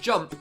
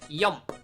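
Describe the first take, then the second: First: The word begins with a J sound. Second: The word begins with a Y sound.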